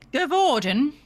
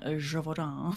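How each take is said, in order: First: The name is said as Gavorden. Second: The name is said as Gévaudan. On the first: The speaker calls it wrong. "one of the characters was called Gavorden" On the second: The speaker calls it right. "I believe you mean Gévaudan"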